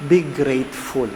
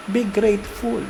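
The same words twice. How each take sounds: First: Said in the usual way. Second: "Be grateful" lifted higher and a little softer; emphatic higher repeat. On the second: Shown as a demonstration. Priest urging his congregation with a higher "Be grateful". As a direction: say "Be grateful" once more, pitched up, pressing it home. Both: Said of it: "Let me repeat that".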